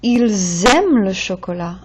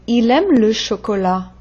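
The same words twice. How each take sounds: First: "Ils aiment" with a buzzed z before the verb; plural z liaison. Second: "Il aime" linked by the l alone, no z; singular, no z. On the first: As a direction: lean on the z between "Ils" and "aiment". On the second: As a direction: run "Il" straight into "aime". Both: Shown as a demonstration. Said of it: "That Z sound tells me it's more than one".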